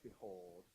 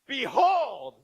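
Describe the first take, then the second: First: It is said in a calm, flat voice. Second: It is said loudly and with excitement.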